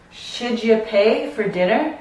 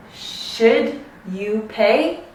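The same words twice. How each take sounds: First: "Should you" run together as "shouldja"; "Should you" joined with a J; linked J sound. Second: Said in the usual way. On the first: Shown as a demonstration. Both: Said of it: "you need to insert this j sound".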